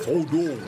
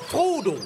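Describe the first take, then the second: First: The stress is on the second syllable. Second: The stress is on the first syllable.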